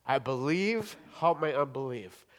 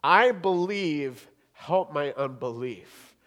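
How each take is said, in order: First: Said in the usual way. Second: Slow loud "I believe," then a slow, falling "help my unbelief."; emphatic plea. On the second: Shown as a demonstration. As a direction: cry out "I believe" and let "help my unbelief" sink. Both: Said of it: "Now, I want to think about that".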